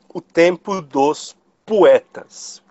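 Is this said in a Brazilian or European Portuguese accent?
Brazilian. It is said in a plain Brazilian Portuguese accent.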